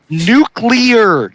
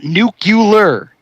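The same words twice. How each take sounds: First: No vowel is heard between the c and l. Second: An extra vowel is heard between the c and l. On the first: The speaker calls it right. "it's November Uniform Charlie Lima Echo Alpha" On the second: The speaker calls it wrong. "not November Uniform Charlie Uniform Lima"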